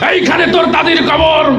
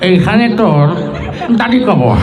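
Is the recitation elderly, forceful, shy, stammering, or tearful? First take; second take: forceful; elderly. First: It is recited in a forceful, speech-making manner. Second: It is recited in an old man's voice, mouth full. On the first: The reciter is used to giving speeches. "নেতা এসে কবিতা আবৃত্তি করছে এইভাবে" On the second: The reciter is an old farmer chewing betel. "মুরব্বী মানুষ, বুড়া চাষা ... পান খেতে খেতে"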